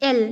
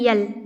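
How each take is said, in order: First: It begins directly with a vowel. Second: It begins with a y sound. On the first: The speaker calls it right. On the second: The speaker calls it wrong.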